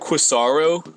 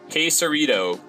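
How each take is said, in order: First: The word is said without any T sound. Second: The word is said with a clear T sound. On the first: The speaker calls it wrong. "they just mispronounce the shit out of it" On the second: The speaker calls it right. "there's a damn T in it, so pronounce the T"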